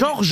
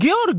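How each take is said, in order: First: The name is pronounced as Georges. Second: The name is pronounced as Georg. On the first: The speaker calls it wrong. "Ça se dit pas" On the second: The speaker calls it right. "Ça se dit Georg le prénom"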